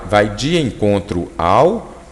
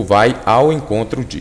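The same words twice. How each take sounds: First: "vai de encontro ao" slowly spelled out word by word; contrastive stress. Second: "vai ao encontro de" set apart as the alternative; contrastive stress. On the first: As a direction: draw out "vai de encontro ao" to set it apart. ("vai de encontro ao" dito devagar, destacando cada palavra) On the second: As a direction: mark out "ao encontro de" against the other phrase. ("vai ao encontro de" com ênfase de contraste) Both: Shown as a demonstration. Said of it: "aqui gera muita dúvida".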